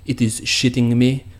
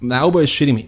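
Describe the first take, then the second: First: It is said in a put-on French accent. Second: It is said in the speaker's own accent.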